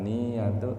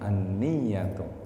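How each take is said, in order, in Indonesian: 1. Bunyi y-nya pendek dan tunggal. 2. Bunyi y-nya ditahan panjang dan dobel. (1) "bukan niyatu" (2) "dengan baca tasydid huruf ya-nya"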